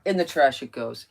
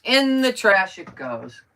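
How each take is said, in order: First: Said in the usual way. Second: "In the trash it goes" loud, higher, stretched; drawn-out emphasis. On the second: Real, not acted. Crafter tosses paper, "In the trash it goes" loud and drawn out.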